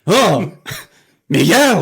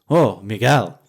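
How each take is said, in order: First: The voice rises to a higher pitch. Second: The voice stays at a lower pitch. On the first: The man is now more alarmed. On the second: The man is concerned.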